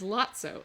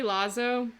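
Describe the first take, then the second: First: The middle consonant is a ts sound. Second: The middle consonant is a plain z sound. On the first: "the proper Italian pronunciation is Lazzo, like pizza" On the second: "it's really Lazo"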